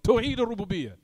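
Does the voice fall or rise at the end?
fall. The voice falls at the end, like a statement. It gives the answer. The speaker calls it right. "Make the statement"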